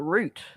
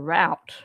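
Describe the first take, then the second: First: Route is said in an Australian way, like root. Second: Route is said in an American way, like rowt. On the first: "we call it a route" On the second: "when I hear Americans talk about a route"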